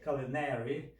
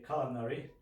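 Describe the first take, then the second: First: It is said with an American accent. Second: It is said with a British accent. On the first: "the Americans say culinary" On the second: "while the British say culinary"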